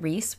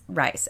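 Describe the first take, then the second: First: The vowel sounds like the one in 'piece'. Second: The vowel sounds like the one in 'ice'. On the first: The speaker calls it wrong. "It's not Reese" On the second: The speaker calls it right. "It has to be Rice"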